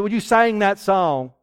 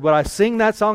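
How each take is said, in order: First: Southern sing. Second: Said in the usual way. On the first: Retold or imitated. Sung, boy repeats his request, mimicked with a southern vowel. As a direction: sing drawled as "saing" in a southern accent. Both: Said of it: "So no, I don't talk like that".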